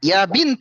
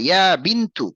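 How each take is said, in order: First: The second word ends on a consonant. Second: The second word ends with a short u vowel. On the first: The speaker calls it wrong. "ইয়া বিন্ত বললে হবে না" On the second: The speaker calls it right.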